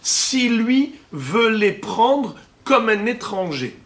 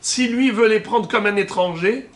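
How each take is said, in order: First: It is spoken slowly and deliberately. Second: It is spoken at a normal pace.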